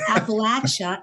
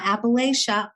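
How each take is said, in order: First: The third syllable sounds like 'latch'. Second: The third syllable sounds like 'lay'. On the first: The speaker calls it right. "It's Appalachia. And if you don't say it right, I'll throw an apple at you" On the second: The speaker calls it wrong. "they say it wrong. It's not Appalachia"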